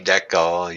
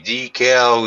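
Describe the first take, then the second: First: The word is said with a Canadian pronunciation. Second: The word is said with an American pronunciation. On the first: "we say decal" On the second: "You say decal"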